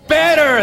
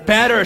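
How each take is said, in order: First: The word is screamed very loudly. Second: The word is said at a normal volume. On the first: "Scream it out" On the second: "Say it with me"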